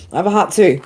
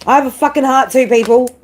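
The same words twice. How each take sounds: First: Said in the usual way. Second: Pitched up and pushed, a real tearful cry of protest; emphatic outburst. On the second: Real, not acted.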